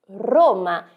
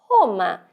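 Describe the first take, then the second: First: The R is a trilled tongue sound. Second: The R is a raspy throat sound. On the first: This is the Italian pronunciation. "em italiano" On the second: This is the Portuguese pronunciation. "Em português nós temos"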